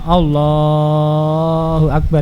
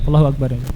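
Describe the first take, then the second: First: The phrase is drawn out very long. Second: The phrase is said very short and quick. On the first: "itu terlalu panjang" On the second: "Tidak pula terlalu pendek"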